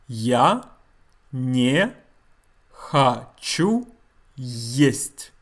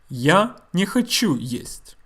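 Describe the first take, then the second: First: The sentence is said slowly. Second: The sentence is said at normal speed.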